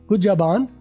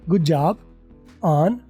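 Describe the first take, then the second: First: On is linked smoothly onto job. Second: On is said separately from job. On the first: The speaker calls it right. "गुड जॉब ऑन मिला के" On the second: The speaker calls it wrong. "ऑन मैंने separate किया अभी"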